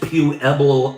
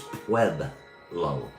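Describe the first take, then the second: First: The word begins with a separate 'pew' sound. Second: The word begins with one gliding 'pweb' sound. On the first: The speaker calls it wrong. "It's not pronounced Pueblo. Don't try the pew" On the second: The speaker calls it right. "it's Pueb. It's Pueblo"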